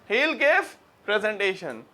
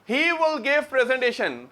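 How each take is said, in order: First: He and will merge into one syllable. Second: He and will are said as separate words.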